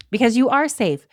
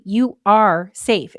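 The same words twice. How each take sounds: First: Said in the usual way. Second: "you are safe" drawn out slowly, every word weighted; slow emphasis. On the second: Shown as a demonstration.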